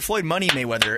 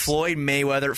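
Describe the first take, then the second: First: Money punched between Floyd and Mayweather; stress on Money. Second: Said in the usual way. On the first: Shown as a demonstration. Co-host correcting the boxer's name to add the nickname, stress on Money. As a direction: lean on Money in the middle of the name. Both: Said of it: "emphasis on the money".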